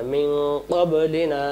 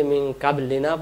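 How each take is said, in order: First: "মিন" hummed nasal, "ক্বাবলিনা" with back q; correct recitation. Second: "কাবলিনা" quick, with light front k; wrong reading. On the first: Teacher corrects pupils, "ক্বাবলিনা" with heavy throaty q. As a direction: chant "ক্বাবলিনা" from the throat, long ending. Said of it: "এখানে মিন হবে না". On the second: Teacher shows the mistake, "কাবলিনা" with light k. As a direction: say "কাবলিনা" unchanted, with open a. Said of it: "তাহলে এটা তো ভুল". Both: Shown as a demonstration.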